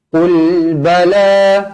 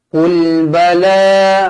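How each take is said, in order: The two takes are said the same way.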